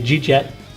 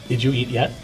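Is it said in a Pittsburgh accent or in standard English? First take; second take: Pittsburgh; standard. First: It is said in clipped Pittsburghese. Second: It is said in full standard English.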